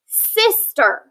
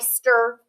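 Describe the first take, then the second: First: The first vowel is a short I sound. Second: The first vowel is a long I sound. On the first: The speaker calls it right. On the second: The speaker calls it wrong.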